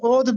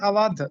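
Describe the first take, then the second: First: The word is said as one syllable, odh. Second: The word is said as two syllables, a-wadh. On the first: The speaker calls it wrong. "ये लफ्ज ओध भी नहीं है" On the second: The speaker calls it right. "बल्कि अवध"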